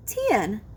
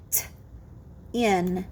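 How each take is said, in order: First: Said in the usual way. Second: T alone, long pause, low "in"; segmented sounds. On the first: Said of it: "you will blend the sounds". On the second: Shown as a demonstration. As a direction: split tin into T and "in". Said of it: "I will say the sounds in a word".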